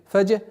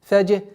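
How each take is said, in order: The two takes are said the same way.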